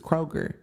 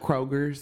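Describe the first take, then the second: First: The word ends without any s sound. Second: The word ends with an added s sound. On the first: The speaker calls it right. "it's Kroger" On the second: The speaker calls it wrong. "we do that too with Kroger's"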